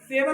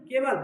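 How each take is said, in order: First: The word begins with an s sound. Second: The word begins with a k sound. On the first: The speaker calls it wrong. "सेवल नहीं" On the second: The speaker calls it right. "केवल, क्योंकि ए आ गया"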